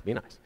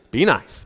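First: Very soft, lower self-reminder; backing off. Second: Said in the usual way. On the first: Real, not acted. Preacher reminding himself to be nice, hushed and low. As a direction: say it almost under your breath, to yourself. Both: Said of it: "I gotta back off".

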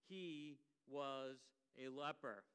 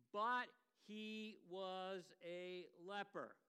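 First: Said in the usual way. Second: "but" drawn out and leaned on, slow; stress on but. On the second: Shown as a demonstration. Preacher singles out the phrase for the church, stressing "but". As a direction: hang the whole phrase on "but". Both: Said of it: "I want to focus on this phrase".

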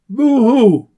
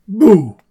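First: Hammed-up boo hoo sob; a playful fake sob, higher and louder; mock crying. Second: Said in the usual way. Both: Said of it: "don't cry".

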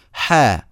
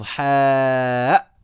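First: حاء said short as "haa", open ending; حاء pronounced "haa" with a natural length; no hamza. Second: حاء drawn out very long, "haaaaa'"; over-long vowel in حاء, stopped with hamza; hamza at the end. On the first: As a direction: end حاء on the vowel, no glottal stop. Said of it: "يعني ما في همزة". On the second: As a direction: stretch حاء slowly and close on a glottal stop. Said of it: "ولا يلفظ". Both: Shown as a demonstration.

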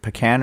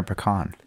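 First: "pecan" with the short A of "can"; "pecan" ending like the word can; pecan said puh-CAN. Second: "pecan" with an open AH in the last syllable; "pecan" ending in a long KAHN; pecan said puh-KAHN. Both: Shown as a demonstration. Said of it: "Is it pecan or pecan".

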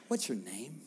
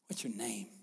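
First: Soft, gentle asking of "What's your name?"; gentle question. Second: "What's your name?" in a breathy whisper; whispered question. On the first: Jesus gently asking the man his name, soft. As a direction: ask "What's your name?" kindly and quietly. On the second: Jesus tenderly asking the man his name, whispered. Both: Shown as a demonstration. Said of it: "Such a kind, gentle, relational thing".

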